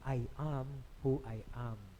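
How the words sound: The 'a' in 'am' has an open Filipino vowel. "Katulad ng mga Pilipino"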